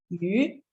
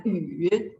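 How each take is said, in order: First: YU with the pitch sweeping upward; rising tone. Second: YU dipping down, then rising; changed tone. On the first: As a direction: say YU like a rising question. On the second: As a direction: let YU sag and lift back up. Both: Shown as a demonstration. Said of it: "when you change the tone".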